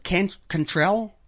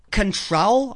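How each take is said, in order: First: "Cantrell" slowly, with a full "can" and an "ell" ending; halting, soft "Cantrell" as "can-TRELL"; second-guessed pronunciation. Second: "Cantrell" with a reduced first syllable and a long O in the last; unsure "Cantrell", first vowel swallowed; tentative pronunciation. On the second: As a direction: say "Cantrell" like "kun-TROLL", rising as if unsure. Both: Shown as a demonstration. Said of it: "I guess you pronounce it".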